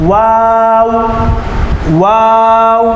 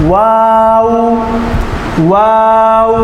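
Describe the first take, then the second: No difference in how they are said.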